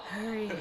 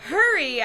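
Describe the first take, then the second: First: Hushed, breathy urgency; soft, breathless urging; breathless whisper. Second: Loud, raised-pitch yell; startled loud echo; crying out. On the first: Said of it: "he said in a breathless whisper". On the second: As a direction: cry it out in alarm. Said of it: "I cried". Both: Acted.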